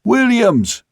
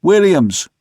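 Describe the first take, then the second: First: Very high, held-out holler; straining high hail aloft; louder call. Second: High, loud call of a name; raised carrying hail. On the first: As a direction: call the name at the top of the range. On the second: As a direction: holler for a man aloft. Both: A narrator's reading. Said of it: "more loudly".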